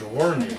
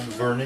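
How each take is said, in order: First: The name begins with a W sound. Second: The name begins with a V sound. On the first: This is how the Scandinavian parents said it. "They could only say W's" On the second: This is the name as it was given. "my name to them was not Vernie"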